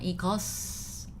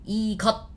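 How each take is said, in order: First: The word ends with an s sound. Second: The word ends with a clipped, unreleased t. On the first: The speaker calls it wrong. "It's not 이것" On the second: The speaker calls it right. "you have to cut it there"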